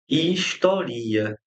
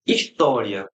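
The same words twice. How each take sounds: First: Historia said slowly with stress on RI, his-to-RI-a; drawn out, stress on RI in historia; slow verb form. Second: História stressed on TÓ; his-TÓ-ri-a with an open o. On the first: Teacher slowly showing historia stressed on RI. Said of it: "mas eu tenho". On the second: Teacher contrasting História with the verb form. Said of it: "Eu tenho história". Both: Shown as a demonstration.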